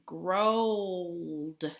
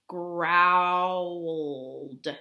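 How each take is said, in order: First: The vowel sounds like 'oh' in grow. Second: The vowel sounds like 'ow' in owl. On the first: The speaker calls it wrong. "that doesn't sound right" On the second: The speaker calls it right. "Not O, but owl"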